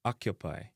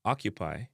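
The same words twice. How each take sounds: First: "occupy" as "ak-ya-pie"; Jamaican pronunciation. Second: "Occupy" as "ock-you-pie"; English pronunciation. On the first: Teacher giving the Jamaican version, "occupy" as "ak-ya-pie". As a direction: relax occupy's vowels to "a". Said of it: "in a Jamaican". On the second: Teacher giving the English word first, "Occupy" as "ock-you-pie". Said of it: "in English". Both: Shown as a demonstration.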